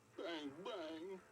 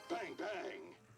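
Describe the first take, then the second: First: It is said in a sad tone. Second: It is said in an angry tone.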